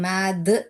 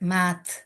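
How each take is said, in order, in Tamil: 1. வார்த்தை 'thu' என்ற குரலுள்ள உயிரொலியில் முடிகிறது. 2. வார்த்தை வெறும் மூச்சுக் காற்றில் முடிகிறது. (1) "மேது து அப்படின்னு சொல்றது இல்ல" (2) "வெறும் காட்டு தான் வரும்"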